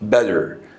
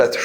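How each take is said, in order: First: "better" with the double T said as D. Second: "better" with a T sound in the middle; the mistaken "better", T left unsoftened; hard T pronunciation. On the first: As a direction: say "better" like "bedder". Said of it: "ال double T بتنطق D". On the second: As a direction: sound the double T in "better" as a real T. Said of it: "النطق الصح بتاعها مش better". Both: Shown as a demonstration.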